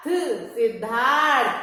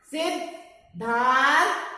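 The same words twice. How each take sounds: First: सिद्धार्थ slowly joined, long धार, falling end; slow whole-word pronunciation. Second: सिद्धार्थ in parts, सिद्, धार, थ, with र before थ; slow, broken-up pronunciation. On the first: Teacher putting the word together for children, सिद्धार्थ slow and whole. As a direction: blend सिद्धार्थ into one drawn-out word. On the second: Teacher showing where र is sounded, सिद्धार्थ slowly in parts. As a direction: stretch सिद्धार्थ with gaps between its sounds. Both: Shown as a demonstration. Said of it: "के पहले र का उच्चारण करेंगे।".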